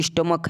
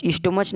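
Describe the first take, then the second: First: "स्टमक" ending in a k sound; correct k reading. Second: "स्टमच" ending in a ch sound; wrong ch reading. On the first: Teacher correcting the reading, "स्टमक" with k. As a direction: say "स्टमक" with "क", not ch, at the end. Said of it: "स्टमक है". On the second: Teacher rejecting a reading, "स्टमच" with ch. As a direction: say "स्टमच" with "च" where k belongs. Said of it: "स्टमच नहीं है". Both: Shown as a demonstration.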